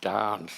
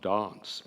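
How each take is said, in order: First: The vowel is short, in an Australian accent. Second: The vowel is long, in a British accent. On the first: The speaker calls it right. "to teach him to say da- dance" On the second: The speaker calls it wrong. "and not dance"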